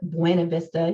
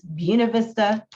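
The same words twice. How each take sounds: First: The name is said with a Spanish-like pronunciation. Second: The name is said with a local anglicized pronunciation. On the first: This marks the speaker as an outsider. The speaker calls it wrong. "If you call it Buena Vista, you'll never sell a house in there" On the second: This is how locals say the name. The speaker calls it right. "I'm saying it wrong intentionally because that's how you say it here"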